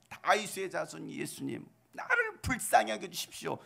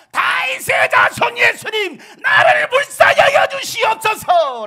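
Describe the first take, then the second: First: Said in the usual way. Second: Slow, very high full-force shout; louder crying out. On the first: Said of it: "한번 여러분들이 바디메오처럼". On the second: Acted. Bartimaeus begging Jesus for mercy, loud pleading shout. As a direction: cry out desperately at the top of your voice. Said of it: "더 큰 소리로 외칩니다".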